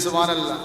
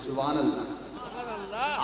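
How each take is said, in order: First: It is said more loudly. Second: It is said at normal volume.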